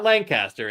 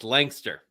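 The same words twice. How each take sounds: First: Every vowel in the word is fully pronounced. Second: Some vowels in the word are dropped. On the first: The speaker calls it wrong. "It's not Lancaster" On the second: The speaker calls it right. "Pennsylvanians don't say all the vowels"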